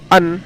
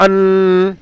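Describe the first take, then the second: First: Said in the usual way. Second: ان with a long, higher nasal hum on the ن; ان with the closing n sustained through the nose; ghunna on ان. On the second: Shown as a demonstration. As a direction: hold the final ن of ان as a drawn-out hum. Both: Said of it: "ابھی ہم بالکل بھی گننا نہیں کریں گے".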